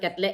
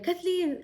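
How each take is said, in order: First: The name is said clipped with sounds missing. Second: The name is said fully with all its sounds. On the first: The speaker calls it wrong. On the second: The speaker calls it right.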